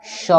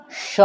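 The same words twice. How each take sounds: First: श with the tongue forward at the front palate; the wrong palatal श. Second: श with the tongue curled back to the palate; retroflex sh. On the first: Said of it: "ना कि". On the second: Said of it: "तालू की तरफ ले जाइए और बोलिए". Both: Shown as a demonstration.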